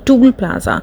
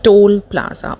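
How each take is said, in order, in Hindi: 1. पहले शब्द में oo स्वर है। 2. पहले शब्द में oh स्वर है। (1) "बहुत सारे लोग जो हैं इसको प्रोनाउंस करते हैं टूल plaza" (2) "so it is Toll Plaza"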